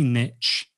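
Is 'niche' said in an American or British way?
American. It is said with an American pronunciation. "I say niche ... because I know there's probably more American people tuning in"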